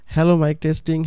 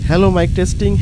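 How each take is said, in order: First: The voice is heard over a quiet background. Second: The voice is heard over loud fan noise. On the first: "পিসিতে কিন্তু আপনারা এরকম একটি voice quality পেতে পারেন।" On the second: "এখন আমার ফ্যান চালু আছে"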